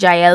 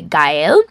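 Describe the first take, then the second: First: The name starts with a J sound. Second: The name starts with a hard G sound. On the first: The speaker calls it wrong. "It was my bad pronunciation in the beginning. I said Jael before" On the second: The speaker calls it right. "but it's actually Gael"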